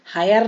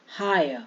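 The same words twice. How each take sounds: First: "हायर" as haa-yar, final r pronounced; louder "हायर" with a clear r at the end; wrong, r sounded. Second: "हायर" as haa-ya, no final r; correct, silent r. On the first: Teacher showing what not to say, r sounded. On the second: Teacher giving the right form, r dropped. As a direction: let "हायर" fall on an open a. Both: Shown as a demonstration. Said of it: "हायर नहीं बोलेंगे".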